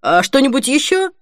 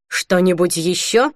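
First: Said in the usual way. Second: Slow, mildly sarcastic question. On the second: A narrator's reading. Cashier to Holly with her pile of sweets, sarcastic. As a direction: draw it out with mock helpfulness. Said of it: "саркастично спросил кассир".

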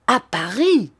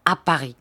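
First: Higher startled cry; astonished exclamation. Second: Said in the usual way. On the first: A narrator's reading. Sir Hassel cries out at news of the body, astonished. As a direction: exclaim it in sudden disbelief. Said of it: "s'écria Sir Hassel en se redressant".

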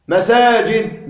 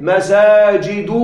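First: مساجد said slowly as "masaajid", closing on d; pausal ending. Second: مساجد stretched out as "masaajiidu"; damma without tanween. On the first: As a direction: stop مساجد on a vowelless d. (مساجد بسكون الدال مع التمهل) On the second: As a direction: draw out مساجد, ending on open -du. (مساجد بضمة ممدودة بدون تنوين) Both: Shown as a demonstration. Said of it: "بدون تنوين".

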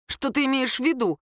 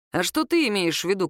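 First: Higher, mildly offended question; sulky. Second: Lightly voiced Kirill. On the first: Girl questions his jibe, mildly sulky and higher. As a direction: ask it with a slight huff. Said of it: "насупилась девушка". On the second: Man throws the girl's question back, evenly. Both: A narrator's reading.

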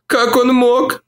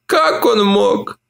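First: High moan, stress on «он»: «Как ОН мог?»; moaning woman. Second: Slow, high moan, stress on «Как»: «КАК он мог?». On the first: Olivia moans to Mark about Tim, «он» stressed. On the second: Olivia repeats it to Mark, slowly, «Как» stressed. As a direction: drag it out, leaning on «Как». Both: A narrator's reading. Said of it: "стонала она".

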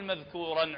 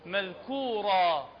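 First: مذكورا ending in an -an nunation sound; wrong nunation. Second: مذكورا ending in a long a, no n, slowly; مذكورا held as meðkura at the pause; pausal long a. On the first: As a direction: say مذكورا as maðkuran, with the final n. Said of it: "لا نقول مذكورا عندما نقف". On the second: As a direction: stop on مذكورا with a plain long a. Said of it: "نقول شنو؟". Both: Shown as a demonstration.

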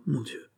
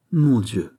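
First: «Mon Dieu!» breathed out much softer, falling; murmured dismay. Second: Dismayed exclamation. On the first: Fouquet, sweating, murmurs in quiet despair to Aramis. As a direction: let «Mon Dieu!» sink to a hushed murmur. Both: A narrator's reading. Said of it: "murmura Fouquet".

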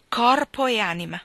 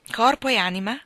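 First: "corpo e anima" as a fervent statement, falling at the end; stress on corpo. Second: "Corpo e anima?" echoed back with a rising tune; questioning echo. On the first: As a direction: vow "corpo" with weight and let "anima" drop. ("corpo e anima" detto con enfasi, tono discendente) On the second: Echoing his words back. ("Corpo e anima?" ripetuto come domanda, tono ascendente) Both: A narrator's reading.

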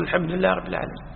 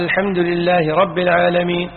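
First: Quieter and quicker, murmured after the imam; follower's echo. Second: Said in the usual way. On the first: Shown as a demonstration. Teacher showing the worshipper echoing the imam, soft and quick. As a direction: echo it softly and fast, like the one behind. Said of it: "أنت تقول". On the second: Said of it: "فإذا بدأ يقرأ الفاتحة قال".

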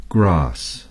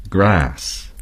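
First: "grass" with a long broad ah vowel, British style. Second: "grass" with a flat short a, American style. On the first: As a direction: say "grass" like "grahss". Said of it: "The British would say". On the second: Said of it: "Americans would say". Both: Shown as a demonstration.

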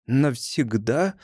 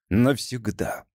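First: Solemn. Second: Said in the usual way. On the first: A narrator's reading. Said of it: "торжественно произнесла незнакомка". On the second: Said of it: "повторил Вольфганг".

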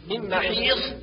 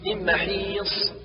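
First: من محيص ending in emphatic th; sad as heavy thaa. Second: من محيص ending in whistling emphatic s; true sad. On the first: Teacher shows the error, محيص with final heavy th. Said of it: "والنطق بالصاد ثاء مفخمة". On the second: Teacher corrects, slow محيص with clear emphatic s. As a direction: draw out محيص onto a clean heavy ص. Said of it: "والصواب". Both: Shown as a demonstration.

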